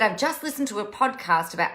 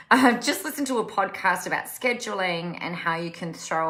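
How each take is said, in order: First: Quick, slightly put-on odd reading voice; weird voice. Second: Said in the usual way. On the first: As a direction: read the comment out in a funny little voice. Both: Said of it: "I don't know why I did that in a weird voice".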